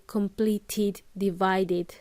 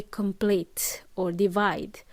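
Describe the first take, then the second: First: "completed, divided" with clear final "id"; id endings. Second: "complete or divide" with no final "id"; missing id ending. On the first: Teacher showing what students omit, clear id endings. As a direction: sound out "id" slowly on "completed, divided". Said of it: "would not pronounce the". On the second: Teacher showing students' mistake, endings left off. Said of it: "students would just say". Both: Shown as a demonstration.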